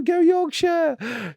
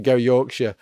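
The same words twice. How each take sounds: First: Much higher, slow, bellowed cheer; terrace shout. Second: Said in the usual way. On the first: Pretend. Flag-waving fan cheering Yorkshire, in a slow high bellow. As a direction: roar it out like a football chant. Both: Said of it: "I'm shouting".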